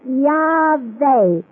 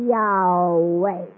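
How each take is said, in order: First: The middle sound is a buzzing V with friction. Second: The middle sound is an open, vowel-like glide. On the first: The speaker is not fully at spiritual rest. "a blocking off of some of the air passage... enough to pronounce a consonant" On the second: The speaker is in total spiritual rest. "it is all in vowel sound"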